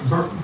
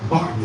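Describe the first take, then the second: First: Burton said with an ur vowel, as in burn, before the correction; Burton, the ur sounding like in burn, the slip; misspoken name. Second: Barton said with a clear ar vowel, as in bar; corrected name. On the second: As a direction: fix it to Barton, ar as in car. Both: Real, not acted. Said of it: "Barton, excuse me".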